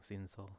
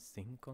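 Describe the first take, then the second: First: Cinco with an S sound, "sinso"; soft C. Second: Cinco with a K sound, "sinko"; hard C. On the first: Reader weighing two ways to say it, soft C. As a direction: make the second C in cinco soft. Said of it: "Is it a hard or C?". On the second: Reader weighing two ways to say it, hard C. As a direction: make the second C in cinco hard. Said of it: "C is sometimes difficult letter". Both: Real, not acted.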